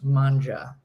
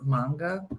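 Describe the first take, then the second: First: The word is pronounced with Italian sounds. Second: The word is pronounced with English sounds. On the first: "That's how you say it in Italian" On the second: "but apparently it's manga"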